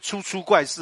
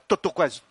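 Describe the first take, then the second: First: The opening syllables are said as chu chu. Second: The opening syllables are said as duo duo. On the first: The speaker calls it wrong. "那个字不要给我念出出怪事啊" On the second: The speaker calls it right. "叫堕堕怪事"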